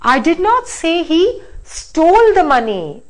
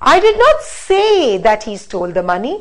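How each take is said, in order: First: The word stole carries the main stress. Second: The word say carries the main stress. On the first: It was borrowed, not stolen. "Now let me stress on this" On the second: Maybe it was written down, not spoken. "Now let's stress on say"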